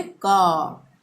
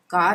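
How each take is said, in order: First: "का" for car, long vowel, no r; silent r. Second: "कार" ending in an audible r; r pronounced. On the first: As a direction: drop the r and hold the vowel in "का". ("का", र के बिना) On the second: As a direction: sound the final r in "कार". ("कार" में र साफ़ बोलें) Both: Shown as a demonstration. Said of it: "कार नहीं बोलेंगे".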